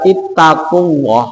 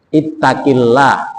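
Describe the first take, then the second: First: The vowel before Allah is a u sound. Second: The vowel before Allah is an i sound. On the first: The speaker calls it wrong. "Kalau dibaca ittaqullah itu menyalahi aturan gramatikal" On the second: The speaker calls it right. "kasro itu kalau diikuti dengan lafzul jalalah itu bacanya adalah lillah"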